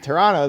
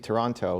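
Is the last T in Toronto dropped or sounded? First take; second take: dropped; sounded. First: The final T sound is dropped. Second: The final T sound is clearly pronounced. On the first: The speaker is from the city. The speaker calls it right. "You say Toronto, like, oh, okay. Now you're local" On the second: The speaker is not from the city. The speaker calls it wrong. "if you say Toronto, it's like, oh, where are you from?"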